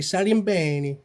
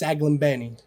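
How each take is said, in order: First: The name is said with Italian pronunciation. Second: The name is said with American pronunciation. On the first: "in Italian, you say Salimbeni" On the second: "But in American, it's Saglimbeni"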